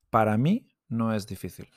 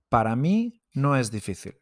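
First: Para mí with a clear stress on mí. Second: Para mí with the stress on mí and a rise. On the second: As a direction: stress on «mí», «no» said in a whisper. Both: Shown as a demonstration. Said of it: "you will see this graphic symbol".

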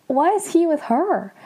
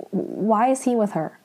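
First: High-pitched, incredulous question; mock shock. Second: Said in the usual way. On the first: Sam seeing the bracelet on him, mock shocked. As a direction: act stunned and baffled, pitched well up. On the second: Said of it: "He's like".

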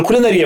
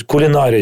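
First: «Кулінарія» said with his own stress, a bit higher. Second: «Кулінарія» said with the crew's correct stress on the і. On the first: Presenter insisting on his stress of «Кулінарія» to the crew. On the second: TV crew correcting the presenter's stress of «Кулінарія». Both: Retold or imitated. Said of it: "правильно поставив наголос в слові кулінарія".

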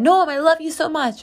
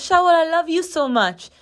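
First: Put-on high-pitched affectionate call to a little kid; sing-song aunt talking to a child; aunt doting on nephew. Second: Put-on high little-kid voice; high, childish imitation of a nephew; seven-year-old nephew. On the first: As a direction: gush to a small nephew, pitched up. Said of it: "and I said". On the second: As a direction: imitate a small boy declaring love, pitched well up. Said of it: "yes, that's how he talks".

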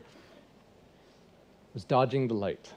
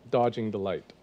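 First: Slow punchline. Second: Said in the usual way. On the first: Shown as a demonstration. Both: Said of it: "That's what I'm doing".

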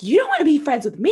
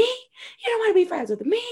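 First: "wanna" lifted high and louder, rising at the end; first indignant repeat, pitched up; mock indignation. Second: "wanna" pitched very high, rising sharply; second repeat pushed even higher; mock outrage. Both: Jen repeating the words in disbelief.

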